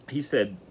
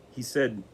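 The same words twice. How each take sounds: The two takes are said the same way.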